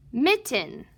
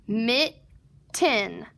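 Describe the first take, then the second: First: Said in the usual way. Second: "Mitten" said in two separate parts, mit, then tin; split syllables. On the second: Shown as a demonstration. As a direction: break "Mitten" into mit and tin with a clear gap. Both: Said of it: "we're gonna read the whole word".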